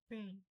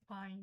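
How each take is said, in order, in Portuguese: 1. A vogal tem som de 'ay'. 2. A vogal tem som de 'ah' aberto. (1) "o A com som de E" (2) "não"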